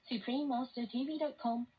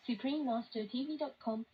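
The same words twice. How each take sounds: The two takes are said the same way.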